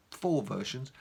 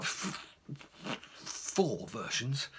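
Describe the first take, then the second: First: Said in the usual way. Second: Soft, slow, held-back "four versions" after a bitten-off F; suppressed swear. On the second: Retold or imitated. Reliving the moment he nearly swore, held back and slow. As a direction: swallow the curse word, slowly. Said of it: "take a deep breath then and not swear".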